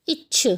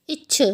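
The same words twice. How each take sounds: No difference in how they are said.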